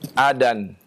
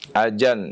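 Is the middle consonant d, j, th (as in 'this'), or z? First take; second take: d; j. First: The middle consonant is a 'd' sound. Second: The middle consonant is a 'j' sound. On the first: "bukan adan" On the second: "Atau dengan jim"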